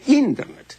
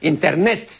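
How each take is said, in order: First: The stress is on the first syllable. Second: The stress is on the last syllable. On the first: It follows the original English pronunciation. "donde hay una evidente esdrujulización del vocablo" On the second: It follows the Spanish pronunciation. "debemos pronunciarlo a la española"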